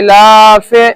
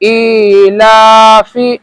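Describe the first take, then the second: First: The final vowel is an 'ay' sound. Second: The final vowel is a short 'ee' sound. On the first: The speaker calls it wrong. "जैसे मजहूल कैसे होता है, ... ये गलत तरीका है" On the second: The speaker calls it right. "बल्कि मारूफ करके पढ़ेंगे।"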